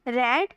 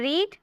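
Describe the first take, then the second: First: The vowel is short, like 'red'. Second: The vowel is long, like 'reed'. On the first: It is the past form. "Second form को हम रेड बोलते हैं" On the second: It is the present form. "First form रीड यानी कि पढ़ना"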